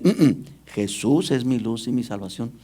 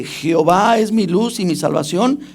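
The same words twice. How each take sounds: First: Mock misreading. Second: Said in the usual way. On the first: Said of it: "ellos dicen".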